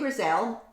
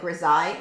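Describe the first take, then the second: First: The word is pronounced the way it is spelled. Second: The word is not pronounced the way it's spelled. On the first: The speaker calls it wrong. "I pronounce it more how it looks like it's written" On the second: The speaker calls it right. "it's supposed to be like"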